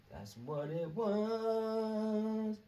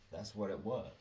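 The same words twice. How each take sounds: First: Much higher, very slow was; drawn-out high repeat. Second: Said in the usual way. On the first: Shown as a demonstration. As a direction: stretch the was out long and high.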